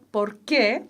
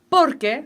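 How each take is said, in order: First: The stress is on the second syllable. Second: The stress is on the first syllable. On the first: It asks why. "acento en que, separado" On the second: It gives the reason. "lo acentúan por y es una palabra"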